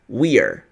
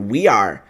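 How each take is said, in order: First: The two words merge into one short syllable. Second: Both words are said fully and separately. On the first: This is how native speakers say it in real life. "No inglês da vida real, você vai ouvir o nativo falar nós estamos dessa forma" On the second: This is the written form. "aqui é o inglês escrito"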